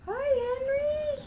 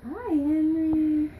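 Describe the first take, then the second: First: High-pitched greeting. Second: Louder hello with a long-held name; loud playful greeting. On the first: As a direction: sing the name out in a little high voice. Greeting for child, high take. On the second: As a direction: call it out and stretch the name. Repeats greeting, lower louder take. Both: Pretend.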